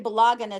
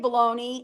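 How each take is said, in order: First: The g sound in the word is pronounced. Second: The g sound in the word is silent.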